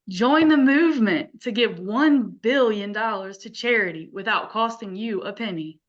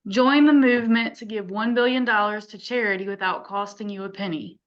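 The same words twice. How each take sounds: First: It is read warmly, with conviction and feeling. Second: It is read plainly, without much feeling.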